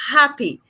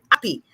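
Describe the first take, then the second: First: Happy with a clear, breathed H; sounded H. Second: Happy said as "appy", H missing; dropped H. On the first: Speech therapist showing the target word, happy with its H. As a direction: pronounce the H at the start of happy. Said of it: "could not give me that". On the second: Speech therapist imitating children, happy without its H. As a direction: leave the H off the front of happy. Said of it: "as if they weren't hearing the H". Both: Shown as a demonstration.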